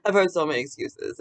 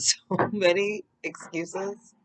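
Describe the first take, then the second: First: Said in the usual way. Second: Laughing. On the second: Real, not acted. Laughing then repeats plainly.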